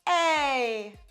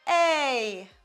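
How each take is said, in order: First: The vowel starts cleanly, neither breathy nor sharp. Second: The vowel starts cleanly, neither breathy nor sharp.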